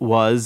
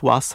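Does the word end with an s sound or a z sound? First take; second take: z; s. First: It ends with a z sound. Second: It ends with an s sound. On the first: "we have it quite frequently in words such as" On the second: "which they pronounce routinely as an S"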